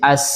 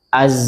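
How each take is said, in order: First: The final consonant is a hissing s sound. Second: The final consonant is a buzzing z sound. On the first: The speaker calls it wrong. "tapi salah ketika seperti sin" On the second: The speaker calls it right. "harusnya seperti itu"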